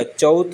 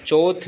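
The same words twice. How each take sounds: First: चौथ as "chauth"; correct au diphthong. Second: चौथ misspoken as "choth"; pure o in चौथ; wrong single vowel. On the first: Teacher correcting it, चौथ with gliding "au". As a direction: open चौथ out to au. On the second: Teacher showing the error, चौथ with plain "o". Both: Shown as a demonstration. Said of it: "double मात्रा आती है".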